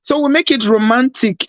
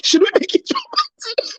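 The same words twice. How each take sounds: First: Said in the usual way. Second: Breathy romantic whisper; seductive whisper. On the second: Pretend. Playful romantic tease on stream.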